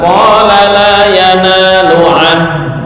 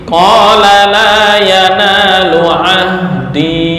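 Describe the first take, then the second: First: The last word ends on a bare consonant. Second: The last word ends with an 'ee' vowel. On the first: The speaker calls it wrong. "enggak boleh dibaca" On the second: The speaker calls it right. "Ketika diwaqaf di sini"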